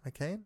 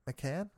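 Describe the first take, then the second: First: "McCain" with a long a as in "cane"; questioning pronunciation. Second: "McCann" with a short a as in "can"; tentative pronunciation. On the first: Podcaster second-guessing the doctor's name, questioning "McCain" with long a. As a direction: try "McCain", rhyming with "rain", softly rising. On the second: Podcaster unsure of the doctor's name, tentative "McCann" with short a. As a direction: try "McCann", rhyming with "fan", softly. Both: Shown as a demonstration.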